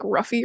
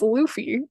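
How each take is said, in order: First: The name begins with an R sound. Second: The name begins with an L sound. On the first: The speaker calls it wrong. "they like R U F F Y, so they call him like Ruffy" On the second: The speaker calls it right. "his name is Luffy"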